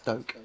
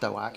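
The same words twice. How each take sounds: First: The vowel is an 'oh' sound. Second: The vowel is not an 'oh' sound. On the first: The speaker calls it right. "it's Doak. As in O" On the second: The speaker calls it wrong. "is not Doak"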